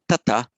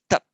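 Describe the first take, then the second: First: The word ends with an added vowel sound. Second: The word ends sharply on a consonant. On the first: The speaker calls it wrong. "But it's not tata" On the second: The speaker calls it right. "it's tat"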